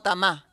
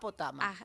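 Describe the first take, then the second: First: The stress falls on the final syllable. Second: The stress does not fall on the final syllable. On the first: The speaker calls it wrong. "te acentúo todo en la última" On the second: The speaker calls it right.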